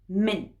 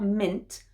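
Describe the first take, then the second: First: The word ends with a glottal stop. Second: The word ends with a clearly released T. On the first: The speaker calls it right. "I'd always use a glottal stop at the end for the T sound" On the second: The speaker calls it wrong. "So not mint"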